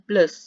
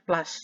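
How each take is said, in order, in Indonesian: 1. Vokal itu terdengar seperti 'u' yang dibulatkan. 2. Vokal itu terdengar seperti 'a' terbuka. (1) "Kadang-kadang ini juga ada yang meng, meng, mengucapkan plus ya" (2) "Tapi kalau di kamus saya menemukannya plus ya"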